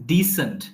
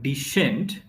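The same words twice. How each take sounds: First: The middle consonant sounds like s. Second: The middle consonant sounds like sh. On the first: The speaker calls it right. "it's decent" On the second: The speaker calls it wrong. "So it's not decent"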